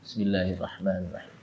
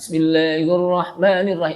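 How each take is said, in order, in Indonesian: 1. Frasa itu diucapkan pelan, hampir dalam hati. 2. Frasa itu diucapkan keras dan jelas dengan suara nyaring. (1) "Baca Bismillah, cuman apa? Sir" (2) "Bacanya apa? Keras"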